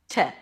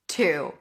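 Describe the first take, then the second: First: The word is cut down to a short t sound. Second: The word has a full, long oo vowel. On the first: The word is unstressed inside the phrase. "the word to is usually reduced to t" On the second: The word is stressed or ends the phrase. "it is pronounced like the number two"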